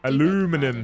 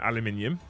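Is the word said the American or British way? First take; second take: American; British. First: It is said the American way, with four syllables. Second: It is said the British way, with five syllables. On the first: This is how someone else says it. The speaker calls it wrong. "Aluminum says Rimney" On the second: This is the proper way to say it. The speaker calls it right. "No, aluminium"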